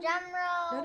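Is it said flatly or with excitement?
flatly. It is said flatly, without excitement.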